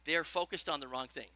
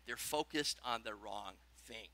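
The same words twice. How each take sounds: First: Said in the usual way. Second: Slower, much softer, lower, for note-taking; a dictating teacher's repeat; slow dictation. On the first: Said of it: "Write this down". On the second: Shown as a demonstration. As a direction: spell it out so they can write it. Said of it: "Write that down".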